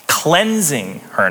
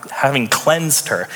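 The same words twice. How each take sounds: First: "Cleansing" drawn out slowly and leaned on; slow down and stress "Cleansing" to mark the ongoing tense. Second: Said in the usual way. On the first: Shown as a demonstration. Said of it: "pay attention to the tense in this". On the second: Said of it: "not have".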